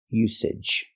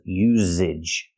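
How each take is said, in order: First: The middle consonant is an unvoiced s sound. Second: The middle consonant is a voiced z sound. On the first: The speaker calls it right. "There's no voice. There's no z sound like zebra. It's the S sound" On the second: The speaker calls it wrong. "I cannot make a voice and say z"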